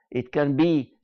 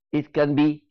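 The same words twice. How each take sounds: The two takes are said the same way.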